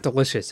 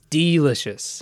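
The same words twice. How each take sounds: First: The first syllable is a plain, reduced 'duh'. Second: The first syllable is 'dee', as in delight. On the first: The speaker calls it wrong. "It's not delicious" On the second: The speaker calls it right. "Like delight"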